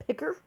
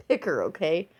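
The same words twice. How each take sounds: First: PICKER said high with a rising question. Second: PICKER said firmly, pitch dropping; clarifying. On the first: Vlogger double-checking her own word, PICKER as a high question. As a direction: query the word PICKER, softer and lifted. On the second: Vlogger making sure she is not misheard, PICKER firm and falling. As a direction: restate PICKER plainly as a correction. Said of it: "I said rice picker". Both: Real, not acted.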